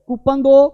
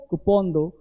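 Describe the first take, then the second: First: कूपन as "KOO-pun", higher; wrong pronunciation. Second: कूपन as "koo-PON", low and soft; correct pronunciation. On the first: Teacher demonstrates the mistaken request, mispronounced. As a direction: say कूपन दो high with a "pun" ending. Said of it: "तो कूपन नहीं बोलना". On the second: Teacher models the corrected request, softly. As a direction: drop कूपन दो low with an "on" sound. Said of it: "ये हल्का सा प में लगाना". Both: Shown as a demonstration.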